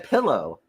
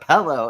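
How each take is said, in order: First: It is said in a small-town Midwestern way. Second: It is said in the usual standard way. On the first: "I also say pillow" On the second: "instead of pillow"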